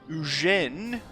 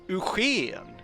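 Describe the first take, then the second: First: The name is said with French pronunciation. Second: The name is said with Swedish pronunciation. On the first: "as you say in France" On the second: "Swedish name places in Swedish"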